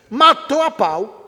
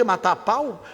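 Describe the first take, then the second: First: "Matou a pau" slow, drawn out and louder; emphatic praise. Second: Said in the usual way. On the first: Shown as a demonstration. Lecturer quoting violent slang used as praise, emphatic. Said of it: "tá elogiando". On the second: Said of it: "Tem coisa pior".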